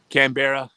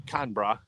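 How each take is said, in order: First: Said in the usual way. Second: "Canberra" squeezed to two syllables, CAN-bra; attempted Australian "Canberra", said as "Can-bra"; Aussie pronunciation. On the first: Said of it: "get you an accent". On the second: Shown as a demonstration. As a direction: say "Canberra" as Aussies do, middle vowel dropped. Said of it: "We're gonna get you an accent".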